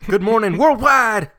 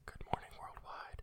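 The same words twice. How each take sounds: First: It is said with high energy. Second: It is said calmly, with low energy.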